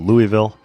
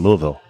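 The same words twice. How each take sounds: First: The name is said in an outsider's way. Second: The name is said in the local way. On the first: The speaker is not from the area. The speaker calls it wrong. "people just kind of looked at me and said, "What?"" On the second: The speaker is from the area. The speaker calls it right. "Oh, you mean Louisville?"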